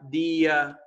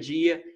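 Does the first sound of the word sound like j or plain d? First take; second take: plain d; j. First: The word begins with a plain d sound. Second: The word begins with a j-like sound. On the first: This is how some southern and northeastern regions say it. "o sul do Brasil tem regiões que falam" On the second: This is the usual pronunciation elsewhere. "Em vez de"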